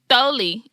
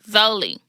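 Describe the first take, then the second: First: The name begins with a lisped 'th' sound. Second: The name begins with a clear 'z' sound. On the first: This is how the name sounds with a lisp. "it sounds like I'm saying Tholi" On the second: This is how the name is meant to sound. "instead of Zoli"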